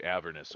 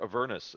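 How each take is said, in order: First: Avernus with the stress on its opening syllable, AV-er-nus; first pronunciation of Avernus. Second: Avernus with the stress on its middle syllable, a-VER-nus; alternate pronunciation of Avernus. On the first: Dungeon Master names the adventure, Avernus stressed on the first syllable. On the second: Dungeon Master offers the other version, Avernus stressed on the second syllable. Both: Shown as a demonstration. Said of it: "as I've heard it alternately pronounced".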